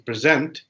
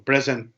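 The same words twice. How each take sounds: First: The stress is on the second syllable. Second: The stress is on the first syllable. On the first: It is a verb meaning to present something. "stress between the first syllable and second syllable" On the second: It is a noun meaning a gift or the present time. "stress between the first syllable and second syllable"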